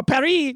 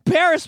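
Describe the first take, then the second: First: Paris said the French way, with silent s; French pronunciation. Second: Said in the usual way. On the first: Shown as a demonstration. Host showing how Parisians talk, Paris pronounced French-style without the s. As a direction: say Paris as "pa-REE". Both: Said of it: "Even the way they talk".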